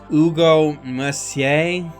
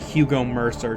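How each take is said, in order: First: The surname is said with a French pronunciation. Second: The surname is said like the English word mercer. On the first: The speaker calls it right. "it's French and I'm going to butcher this pronunciation, but I believe it's pronounced" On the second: The speaker calls it wrong. "It looks like Hugo Mercer to my dumb American mind"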